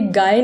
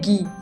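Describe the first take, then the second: First: The name is said with an 'eye' vowel. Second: The name is said with an 'ee' vowel. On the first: The speaker calls it wrong. "ये गाय नहीं है" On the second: The speaker calls it right. "ये है गी"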